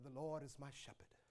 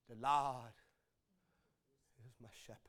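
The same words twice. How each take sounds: First: It is spoken smoothly in a polished, oratorical way. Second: It is spoken haltingly in a frail, broken way. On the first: The speaker knows the text well. "says it professionally and orates it beautifully" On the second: The speaker knows the one the text is about. "she kind of speaks in a broken language"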